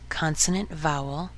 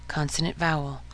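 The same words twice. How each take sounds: The two takes are said the same way.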